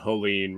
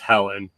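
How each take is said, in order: First: The name ends with an 'een' sound. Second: The name ends with an 'en' sound. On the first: The speaker calls it right. "I think that's how you say it now" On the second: The speaker calls it wrong. "I guess I've been saying it wrong"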